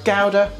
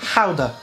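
First: The word is said with an English pronunciation. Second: The word is said with a Dutch-like pronunciation.

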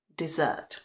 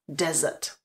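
First: The stress is on the second syllable. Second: The stress is on the first syllable. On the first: It means a sweet dish after a meal. "A ta výslovnost je taková měkčí" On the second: It means a large dry land. "A i ta výslovnost je taková tvrdá"

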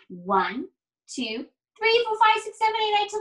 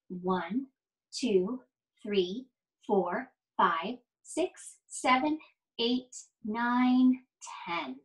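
First: The numbers are counted fast. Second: The numbers are counted slowly.

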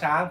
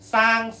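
First: It starts with a ch sound. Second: It starts with an s sound. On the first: This is the Central Thai form. "ภาษากลางก็คำว่าช้าง" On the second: This is the Isan form. "อีสานเนี่ยสร้างซอโซ่"

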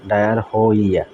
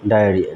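First: It is broken into separate spelled-out syllables. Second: It is said smoothly as one connected word. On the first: The speaker calls it wrong. "যদি মানে syllable ভাঙাই পড়ে তখন হয় কিন্তু ডায়ার হইয়া" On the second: The speaker calls it right. "কিন্তু actually এটার উচ্চারণ হবে ডায়রিয়া"

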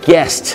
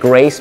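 First: It has no r sound after the g. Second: It has an r sound after the g. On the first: The speaker calls it right. "ไม่ต้องใส่รอเรือใส่ตัว r เข้าไปนะฮะ" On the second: The speaker calls it wrong. "ไม่ใช่นะฮะ"

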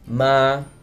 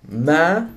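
First: The pitch stays level at mid height. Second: The pitch starts mid and rises upward. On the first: It means ghost. "The first tone is a mid-tone, or also called the neutral tone" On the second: It means mother. "Tone number three is a mid-rising tone"

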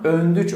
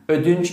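First: The n sound is in the first syllable. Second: The n sound is in the second syllable. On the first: This is an Anatolian dialect form. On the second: This is the standard form.

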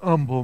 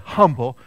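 First: The initial h sound is dropped. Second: The initial h sound is pronounced. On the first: "He never pronounces the H" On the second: "He wouldn't say humble"

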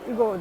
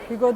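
First: The word begins directly with the vowel sound. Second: The word begins with an audible H sound. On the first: The speaker calls it right. "Hugo diye okuyacakmışız Fransızca'da. H okunmuyor çünkü başta" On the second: The speaker calls it wrong. "Hugo değil"

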